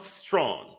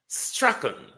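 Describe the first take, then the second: First: The name is said like 'strong'. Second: The name is said like 'Strachan'. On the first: The speaker calls it wrong. "not strong" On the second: The speaker calls it right. "Strachan is the pronunciation"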